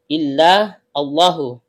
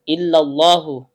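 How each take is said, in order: First: The words are split with a break between them. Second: The words run together without a break. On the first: The speaker calls it wrong. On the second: The speaker calls it right.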